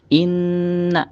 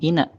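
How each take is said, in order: First: The n sound is held long and nasal. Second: The n sound is cut short. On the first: The speaker calls it right. "tapi inna agak ditahan" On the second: The speaker calls it wrong. "bukan ina"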